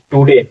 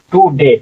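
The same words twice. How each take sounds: First: Said in the usual way. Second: today split into "tu" and "de"; syllable by syllable. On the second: Shown as a demonstration. Teacher reads for learners, today syllable by syllable. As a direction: say today in two separate beats. Word in parts, then joined.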